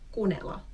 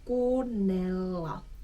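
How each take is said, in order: First: The double sounds are cut short. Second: The double sounds are held long. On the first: The speaker calls it wrong. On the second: The speaker calls it right.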